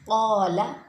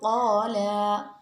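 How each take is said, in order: First: The vowel is held at its normal length. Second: The vowel is stretched out extra long. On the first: The speaker calls it right. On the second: The speaker calls it wrong.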